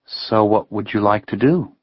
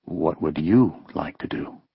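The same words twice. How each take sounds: First: Lightly voiced young woman. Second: Voice lowering. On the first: Heather asking Ben his plans, lightly teasing. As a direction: toss the question back playfully. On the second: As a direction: drop the voice to a hush. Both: A narrator's reading. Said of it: "her voice lowering".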